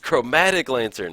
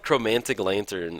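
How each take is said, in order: First: It has no extra n sound: chro-ma-tic. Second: It has an extra n sound: chro-man-tic. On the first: The speaker calls it right. "hey, it's chromatic lantern" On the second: The speaker calls it wrong. "I called it like I called chromantic lantern"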